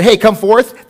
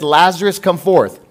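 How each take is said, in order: First: Tossed-off, loud and offhand Hey, come forth; louder, careless Hey, come forth; casual call. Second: Said in the usual way. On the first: Shown as a demonstration. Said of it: "if he would've just said". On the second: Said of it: "Jesus said".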